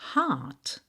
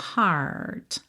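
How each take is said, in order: First: British accent: long vowel, no curled R. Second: American accent with a curled R.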